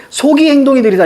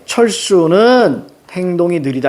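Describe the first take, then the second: First: „속이“ pitched high, run straight into „행동이 느리다“; falsche Satzgliederung. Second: „철수는“ gedehnt, Pause, dann „행동이 느리다“; richtige Satzgliederung. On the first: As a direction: wrongly lead with a raised „속이“ as the subject. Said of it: "이렇게 읽으면 안 돼". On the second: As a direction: set „철수는“ apart slowly as the subject, then read the clause. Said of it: "이렇게 읽어야 됩니다". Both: Shown as a demonstration.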